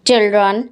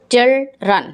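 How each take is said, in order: First: Said in the usual way. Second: Put-on "children" broken as chil, dren; split into syllables. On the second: Shown as a demonstration. Teacher showing syllables to pupils, "children" split in two. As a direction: say "children" in two separate beats. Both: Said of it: "Write multisyllabic words".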